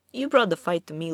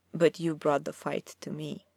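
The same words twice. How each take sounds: First: Brisk, breezy and offhand, "brought" lightly stressed; relaxed conversational menace, faster; easy, relaxed. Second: Understated low simmering threat, "fight" leaned on; a touch of smouldering menace under the breath; low and hot. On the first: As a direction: toss it off casually, as if chatting. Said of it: "still in the same easy, relaxed tone". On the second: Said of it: "His voice went low and hot". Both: A narrator's reading.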